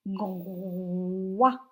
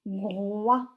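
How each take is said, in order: First: "groix" low, with a long held "gro" gliding into "wa"; drawn-out syllable. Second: Said in the usual way. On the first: Shown as a demonstration. Teacher dictating the next syllable, drawn out. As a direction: stretch "groix" out before the final wa. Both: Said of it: "Vous m'écrivez groix".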